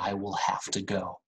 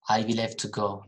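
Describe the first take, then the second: First: The vowel in 'have' is wide open. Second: The vowel in 'have' is less open. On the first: The speaker calls it right. "We really open our mouth with this sound" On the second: The speaker calls it wrong. "please don't say have"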